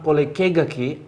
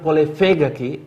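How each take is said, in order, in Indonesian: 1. Suku kata kedua dimulai dengan bunyi k. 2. Suku kata kedua dimulai dengan bunyi v. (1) "pakai K, saya tahu ini orang Bone" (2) "itu saya tahu dia orang Sengkang atau daerah Wajo"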